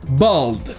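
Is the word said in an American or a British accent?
American. American accent, with an open vowel like in car. "avec le son A que vous avez dans car"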